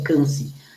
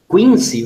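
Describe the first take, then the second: First: The name is said with the French pronunciation. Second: The name is read out as it is spelled. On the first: "em francês se fala, pronuncia Cancy" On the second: "vocês devem entender"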